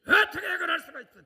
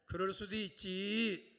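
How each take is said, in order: First: Much higher, much louder, laughing mock outrage on 어떻게; indignant outburst. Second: Forgiving shrug. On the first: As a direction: act out a shocked, accusing church member. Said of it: "또 이러고 따지지 말고". (웃음 섞인 과장된 분노의 외침) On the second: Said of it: "빨리 옆 사람한테". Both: Shown as a demonstration.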